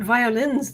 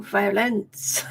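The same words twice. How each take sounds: First: "violins" ending in a clear -ins with a z sound; contrasting pronunciation. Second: "violence" drawn out, ending in a hissed -ence; corrective pronunciation. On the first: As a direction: say "violins" like the instruments. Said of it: "No, violence". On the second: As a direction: stretch "violence" slowly to set it apart from violins. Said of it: "Not violins then". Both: Shown as a demonstration.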